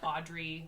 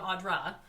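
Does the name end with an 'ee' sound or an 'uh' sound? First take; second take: ee; uh. First: The name ends with an 'ee' sound. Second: The name ends with an 'uh' sound. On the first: The speaker calls it wrong. "people have mispronounced my name" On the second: The speaker calls it right. "So I'm Audra"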